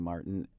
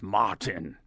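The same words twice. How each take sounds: First: The name is said with a plain English accent. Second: The name is said with a German accent.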